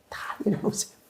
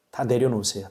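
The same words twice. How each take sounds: First: Softly whispered 내려놓으세요, breathy and hushed; whispered plea. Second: Said in the usual way. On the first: Real, not acted. Pastor whispering to the congregation, urging them to let go. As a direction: hush it down to a whisper. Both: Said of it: "repeated as whisper".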